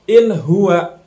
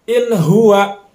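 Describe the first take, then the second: Both takes have the same delivery.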